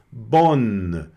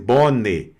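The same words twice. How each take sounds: First: The final vowel is very light. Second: The final vowel is clearly pronounced. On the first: The speaker calls it right. "esse E também você vai pronunciar bem levezinho" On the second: The speaker calls it wrong. "não precisa ser bonne"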